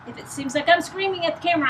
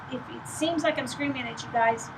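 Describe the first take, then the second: First: Raised voice, high and fast; almost shouting at the camera; loud. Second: Said in the usual way. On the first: Real, not acted. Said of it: "I kinda am right now". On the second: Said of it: "trying to speak very loudly".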